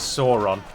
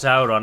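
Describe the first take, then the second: First: The first vowel is a single plain vowel. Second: The first vowel is a gliding diphthong. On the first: The speaker calls it wrong. "it's always very jarring to the ear when someone says Sauron" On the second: The speaker calls it right. "Sauron is pronounced Sauron"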